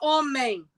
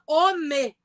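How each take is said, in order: First: The final M sound is pronounced. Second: The final M sound is dropped. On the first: This is how people in many regions of Brazil do not say it. "não fala homem" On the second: This is how people in many regions of Brazil say it. "fala homem"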